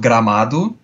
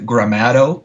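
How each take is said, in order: First: It is said with a Portuguese accent. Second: It is said with an English accent. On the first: "I'm going to first say it in Portuguese" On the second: "You guys would probably pronounce like Gramado or something like that"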